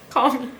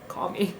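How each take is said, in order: First: Said in the usual way. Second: Much softer and lower call me; quiet desperate call me; urgent quiet plea. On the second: Retold or imitated. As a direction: hush it like a secret SOS. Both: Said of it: "I was like".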